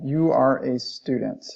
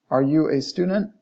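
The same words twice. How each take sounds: First: "You are a student" slow, pitch falling to the end; falling statement intonation. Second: "Are you a student" climbing on student; rising question intonation. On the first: Teacher translating the statement example, falling intonation. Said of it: "intonation indicates a statement". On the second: Teacher translating the question example, rising intonation. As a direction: ask "Are you a student" with a clear final rise. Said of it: "whereas rising intonation usually in". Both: Shown as a demonstration.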